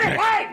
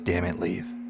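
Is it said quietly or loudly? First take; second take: loudly; quietly. First: It is said loudly, as a yell. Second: It is said quietly and controlled.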